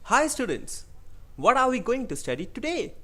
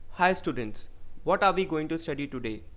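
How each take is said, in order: First: It is lively, with varied pitch and tempo. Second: It is flat, in one unchanging tone. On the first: "I had a change in the tempo, change in the pitch, and there is voice modulation" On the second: "all the words which I have uttered are in a single tone. There is no fluctuation"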